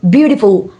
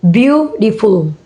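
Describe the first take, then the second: First: Said in the usual way. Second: Beautiful split into beau-ti-ful; syllable by syllable. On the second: Shown as a demonstration. Teacher showing three syllable word, syllable by syllable. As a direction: separate the beats of beautiful. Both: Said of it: "three syllable words".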